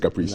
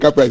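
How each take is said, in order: First: It is pronounced the standard original way. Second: It is pronounced the usual Ghanaian local way. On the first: This is the name's proper pronunciation. "although it's Caprice" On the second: This is how people locally refer to the place. "we say Caprice in Ghana"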